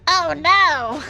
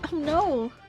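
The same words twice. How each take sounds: First: It is said in a put-on character voice. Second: It is said in the speaker's natural voice.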